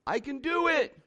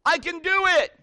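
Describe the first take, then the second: First: Lighter, high-pitched answering call; echo calling back. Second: High, loud confident holler; loud demonstrating call. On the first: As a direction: imitate an echo returning. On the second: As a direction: shout it out to the mountain. Dad demonstrates shouting to echo. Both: Acted.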